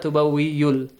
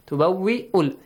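First: A y sound is added after the hamza. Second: No y sound is added after the hamza. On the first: The speaker calls it wrong. "So it's not tubawwi'yul" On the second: The speaker calls it right. "Ya is just the base for hamza. So you don't have to read it"

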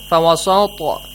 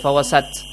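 First: The final consonant bounces with a slight echo. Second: The final consonant stops flat without a bounce. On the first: The speaker calls it right. "Like this one" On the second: The speaker calls it wrong. "You don't say"

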